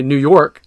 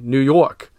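First: Said in the usual way. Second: New York accent, slow, with a stretched awk in York; teaching the New York awk sound. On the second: Shown as a demonstration. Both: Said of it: "pronounced with an exaggerated awk".

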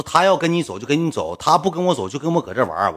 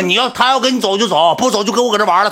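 First: Said in the usual way. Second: The same words now yelled high and loud; angry repeat. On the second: Retold or imitated. To the fat guy, repeating in a high angry yell. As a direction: repeat it in a furious shout. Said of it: "我就急眼了".

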